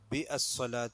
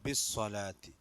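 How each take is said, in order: First: The 'a' after 'bi' is sounded separately. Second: 'Bi' joins straight onto 'ssalati' without the 'a'. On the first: The speaker calls it wrong. "എന്നല്ല" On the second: The speaker calls it right. "അവിടെ ഹംസത്തുൽ വസ്ലാണ്"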